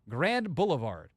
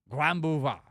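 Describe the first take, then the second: First: It is said with an American English accent. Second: It is said with a French accent. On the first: "For us"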